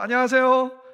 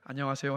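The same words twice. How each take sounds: First: It is said at a higher pitch, smiling. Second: It is said at a normal pitch.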